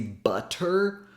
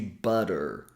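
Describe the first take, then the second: First: The middle T is a crisp, fully released stop. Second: The middle T is a quick tongue tap. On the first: The speaker calls it wrong. "we don't say butter" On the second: The speaker calls it right. "we say butter. We simply tap the tip of the tongue on the gum ridge"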